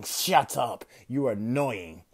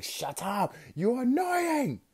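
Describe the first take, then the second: First: Louder, curt villain retort; angry villain. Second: Comic high voice. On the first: Rhino fed up with Deku's jokes, louder angry retort. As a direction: brush him off with a gruff, louder snap. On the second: Rhino throwing cars at Deku, comically high slow yell. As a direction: squeak it out absurdly high and drawn out. Villain repeats his line, higher. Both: Acted.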